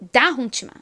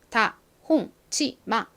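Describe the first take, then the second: First: The stress is on the first syllable. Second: All syllables have about equal strength. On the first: "다만 엄청 크게 들리고 뒤에 홍치마 이 부분은 굉장히 약하게" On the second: "모든 글자가 다 비슷한 세기로 발음이 됩니다"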